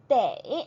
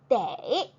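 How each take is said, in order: First: The vowel glides into an 'ei' sound. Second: The vowel glides into an 'ei' sound.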